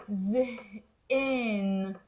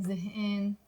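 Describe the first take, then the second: First: زهقان drawn out slowly, the other vowel; other variant. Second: زهقان with the village vowel; Mount Lebanon village way. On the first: Teacher gives the second way to say زهقان. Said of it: "so زهقان or". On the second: Village girl models her own زهقان to students. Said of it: "I like to pronounce it in". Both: Shown as a demonstration.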